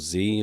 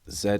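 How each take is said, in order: First: The letter is said the American way, zee. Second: The letter is said the British way, zed.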